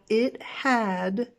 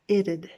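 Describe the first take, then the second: First: Both words are said fully and separately. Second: The words merge into one short contracted sound. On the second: "but the contraction"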